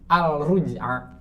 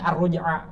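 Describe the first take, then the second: First: The L sound is clearly pronounced before R. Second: The L sound merges into a doubled R. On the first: The speaker calls it wrong. "Kita kan nggak baca al-ruj'a" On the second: The speaker calls it right. "dia sudah bisa baca ini ar-ruj'a"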